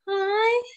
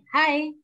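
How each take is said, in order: First: It is said with a fearful tone. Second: It is said flatly, with no emotion. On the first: "Kalau kita pakai ekspresinya takut" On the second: "kita ekspresinya datar"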